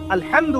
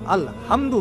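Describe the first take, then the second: First: The h is a deep, throaty h. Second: The h is a light, ordinary breathy h. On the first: It means all praise is for God. The speaker calls it right. "আল-হামদু বললে অর্থ পারফেক্ট হয়" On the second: It means all destruction is for God. The speaker calls it wrong. "ছোট হায় হাওয়াজ দিয়ে পড়লে অর্থ পরিবর্তন হয়ে যায়"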